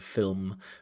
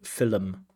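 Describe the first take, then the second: First: The word is said the standard way. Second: The word is said the Irish way. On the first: The speaker calls it right. "instead of film" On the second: The speaker calls it wrong. "so many Irish people that use the word film"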